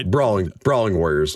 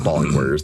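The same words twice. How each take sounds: First: "Brawling" with a clear r after the b; corrected word. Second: "bawling" with no r after the b; misread word. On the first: Reader fixing his misread word, stressing "Brawling". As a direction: say "Brawling" with the br cluster. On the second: Reader citing his slip, saying "bawling" without r. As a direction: say "bawling", starting with plain b. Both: Shown as a demonstration. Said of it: "not bawling warriors".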